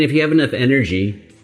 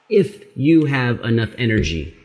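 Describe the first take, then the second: First: It is spoken at a normal, quicker pace. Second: It is spoken at a noticeably slower pace.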